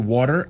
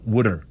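First: It is said in the speaker's own accent. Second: It is said the Philadelphia way, like wooder.

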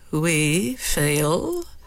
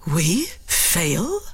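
First: It sounds threatening. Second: It sounds shocked.

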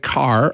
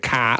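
First: A general American accent with the final R pronounced. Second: A Boston accent with the final R dropped.

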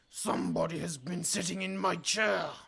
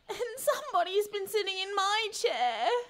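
First: It is a big, deep, growly voice. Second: It is a high, whining, complaining voice.

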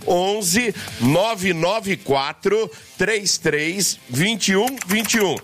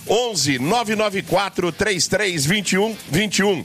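First: The number is said slowly and deliberately. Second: The number is said at normal speed.

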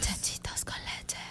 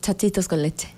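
First: It is said slowly. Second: It is said at normal speed.

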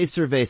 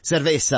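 First: It is said plainly, without a Spanish accent. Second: It is said with an exaggerated Spanish accent.

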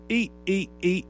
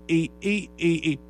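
Both takes have the same delivery.

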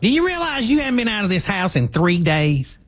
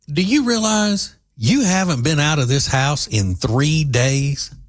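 First: It imitates the woman's way of talking. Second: It is said in the speaker's normal voice.

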